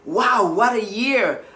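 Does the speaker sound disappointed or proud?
proud. It sounds proud and pleased. The year brought real progress toward a goal. "I have done so much"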